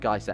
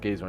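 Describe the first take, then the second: First: It is said the other common way. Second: It is said the usual British way. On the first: "apparently a lot of people pronounce it geyser" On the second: "I've always heard it pronounced geyser in the U K"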